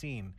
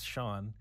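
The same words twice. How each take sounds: First: The name is read out letter by letter. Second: The name is said with a 'sh' sound. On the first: Someone unfamiliar with the spelling is reading it. The speaker calls it wrong. "the supply teacher who comes by is just like" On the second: The name's owner is saying it. The speaker calls it right. "no, it's Sean"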